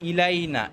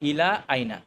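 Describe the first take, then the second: First: The words run together without a glottal stop. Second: The words are split by a glottal stop. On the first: The speaker calls it wrong. "এটা বলতে পারবো না" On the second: The speaker calls it right. "আমাদেরকে এভাবে ভেঙেই বলতে হবে"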